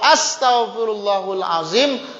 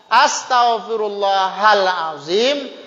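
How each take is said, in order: First: The vowel after Allah is a 'u' sound. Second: The vowel after Allah is an 'a' sound. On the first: God asks forgiveness from me, the great one. The speaker calls it wrong. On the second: I ask forgiveness from God the Great. The speaker calls it right. "Kalimat Allahnya baris atas"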